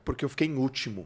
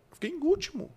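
First: Said in the usual way. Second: "Eu fiquei em último" in a high, whiny, sobbing pitch; mock crying. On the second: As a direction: whine it like a boy crying over losing. ("Eu fiquei em último" com voz aguda de choro imitado) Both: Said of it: "eu falando chorando".

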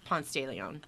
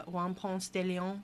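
First: "Ponce de Leon" with a Spanish "Ponce", stress on PONCE; Spanish pronunciation. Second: "Ponce de Leon" detto con la o lunga e dura, alla francese; "Ponce de Leon" pronunciato alla francese, lento; mispronounced Ponce de Leon. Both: Shown as a demonstration. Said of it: "No, that's not how you say it".

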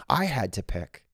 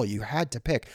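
First: "I" stressed to make it personal. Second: HAD leaned on, falling off to "pick"; "had" stressed as a firm obligation. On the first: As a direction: lean hard on the word "I". Repeats the rule, now about self. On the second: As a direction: put the weight on "had". Rephrasing a rule with shifted stress. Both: Real, not acted.

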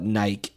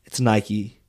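First: Nike said as one syllable, rhyming with bike; Nike as coworkers say it. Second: Nike said in two syllables, ending in ee; correct Nike. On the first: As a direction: say Nike with no final ee sound, like Nyke. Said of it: "Or as my coworkers call it". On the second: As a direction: say Nike as Nye-kee, exasperated. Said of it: "Nobody says Nike". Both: Retold or imitated.

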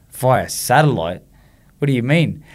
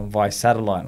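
First: Drawn-out, disbelieving echo; incredulous. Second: Said in the usual way. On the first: Retold or imitated. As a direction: slowly repeat it as if let down and baffled. Dismayed reaction to the announcement.

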